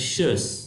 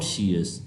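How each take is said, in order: First: The ending is one short syllable, 'shus'. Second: The ending is two syllables, 'shee-us'. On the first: The speaker calls it right. "इस sound की सही pronunciation है शस" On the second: The speaker calls it wrong. "Not शीयस"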